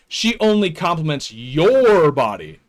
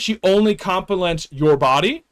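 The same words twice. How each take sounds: First: The stress falls on the word your. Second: The stress falls on the word body. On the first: Her compliments go to no one else's body. "she doesn't compliment anyone else's body? That's a green flag" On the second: Her compliments go to nothing else about the person. "That's bad. She sees nothing else good about you?"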